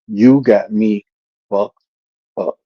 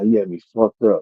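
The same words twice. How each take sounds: First: It is slow, each syllable said separately. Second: It is quick, the words run smoothly together. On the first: The speaker calls it wrong. "why did you slow it all down?" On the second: The speaker calls it right. "It got to go together"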